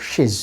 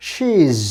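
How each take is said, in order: First: She's as "shiz" with a short i; short vowel. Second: She's as "sheez" with a held ee; long vowel. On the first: Teacher gives the second correct option, short vowel. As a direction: keep the vowel in she's brief. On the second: Teacher gives the first correct option, long vowel. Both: Shown as a demonstration. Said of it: "long sound and short sound".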